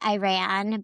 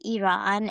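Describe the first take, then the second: First: It is said the way English speakers usually say it. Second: It is said the way Iranians themselves say it. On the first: This is how many outsiders say the name. "a lot of people say" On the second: This is how people from the country say the name. "but we say"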